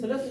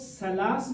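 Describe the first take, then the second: First: The word begins with a th sound. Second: The word begins with an s sound. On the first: The speaker calls it right. "बल्कि किसकी आवाज निकलेगी? सा की" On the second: The speaker calls it wrong. "आप इसको सलास नहीं पढ़ेंगे, सीन की आवाज नहीं निकलेगी"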